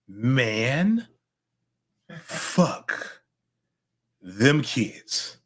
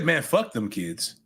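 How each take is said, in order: First: The phrase is said slowly and deliberately. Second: The phrase is said quickly, run together. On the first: It is a calming way to let cares go. The speaker calls it right. "If you say it" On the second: It can imply something literal and inappropriate. The speaker calls it wrong. "Don't say ... because that's too fast"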